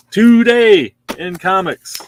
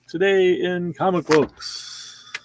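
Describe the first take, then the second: First: Slow, louder, higher showman announcement; grand announcer flourish. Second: Said in the usual way. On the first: Acted. Host announcing the Marvel stack, showman style. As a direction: boom it out like a show host.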